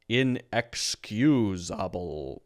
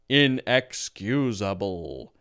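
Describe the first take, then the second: First: Each syllable is said separately with full vowels. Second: Each syllable is said separately with full vowels.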